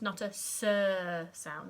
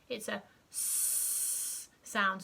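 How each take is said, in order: First: The sound has an added vowel after it. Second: The sound is short and sharp, without a vowel. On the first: The speaker calls it wrong. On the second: The speaker calls it right.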